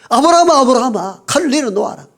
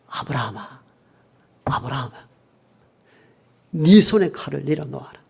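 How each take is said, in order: First: It is called out hurriedly, with urgency. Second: It is read out calmly, without urgency.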